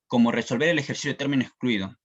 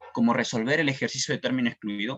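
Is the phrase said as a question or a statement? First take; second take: statement; question. First: It is said with a plain statement tune. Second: It is said with a questioning tune. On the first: The phrase states a purpose, not a question. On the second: The 'how' is being asked about.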